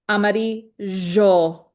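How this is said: The double L sounds like zh. This is how it is said in Uruguay. "in Uruguay, it's amarillo, jo, kind of like a like a J in French or like a Z H"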